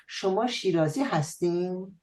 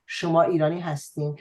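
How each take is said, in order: First: Hint of a Shirazi lilt, tune raised; slight Shirazi dialect colouring; Shirazi accent. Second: Standard Tehrani Persian, quick; Tehrani accent. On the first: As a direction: say it with a light southern Persian Shirazi accent. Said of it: "with a hint of the Shirazi dialect". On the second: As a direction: say it in plain Tehrani dialect. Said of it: "the Tehrani dialect would be". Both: Shown as a demonstration.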